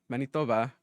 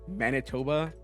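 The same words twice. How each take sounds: First: It is said with a Spanish accent. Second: It is said with an English accent. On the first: The speaker sounds like someone who just doesn't know how to pronounce it. The speaker calls it right. "So I always say them with a Spanish accent" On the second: The speaker sounds like an unworldly, insensitive American. The speaker calls it wrong. "I try not to say them in Eng- with an English accent. You know, like"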